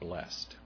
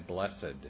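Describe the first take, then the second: First: The word is said with one syllable. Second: The word is said with two syllables. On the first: Someone is doing it to you. "I personally would rather pronounce it as though it's B-L-E-S-T" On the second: It describes a condition you have. "years ago, I would say Blessed is the Man"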